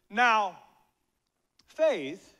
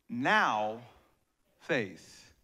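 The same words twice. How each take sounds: First: The stress falls on the word faith. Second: The stress falls on the word now.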